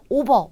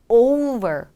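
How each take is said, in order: First: The first vowel is one flat sound. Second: The first vowel glides from o into u. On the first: The speaker calls it wrong. "그냥 오버, 오버가 아닌" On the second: The speaker calls it right. "over 해주시는 거죠"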